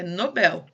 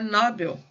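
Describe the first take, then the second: First: The stress is on the last syllable. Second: The stress is on the first syllable. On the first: This is the Portuguese way of saying it. "em português ela é Nobel" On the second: This is the English way of saying it. "Em inglês eu acho que ela é Nobel"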